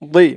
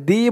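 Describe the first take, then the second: First: The d sound is heavy and full-mouthed. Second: The d sound is light and thin. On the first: The speaker calls it right. "মুখটা একটু ভরপুর থাকবে" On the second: The speaker calls it wrong. "একেবারে দি বলা যাবে না"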